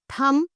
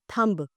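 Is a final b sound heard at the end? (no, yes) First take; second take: no; yes. First: The word ends with no b sound. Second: The word ends with an audible b sound. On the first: The speaker calls it right. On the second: The speaker calls it wrong. "not thumb"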